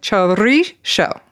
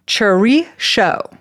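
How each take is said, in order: First: "Chorizo" slow, rolled R, ending "sho". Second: "Chorizo" said slowly with a rolled R, Basque way. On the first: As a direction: Basque "Chorizo" with trilled R and "sho". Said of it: "we gotta do the show instead of the zo". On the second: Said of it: "You roll the R". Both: Shown as a demonstration.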